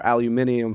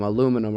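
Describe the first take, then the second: First: Said with five syllables, ending in -nium. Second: Said with four syllables, ending in -num.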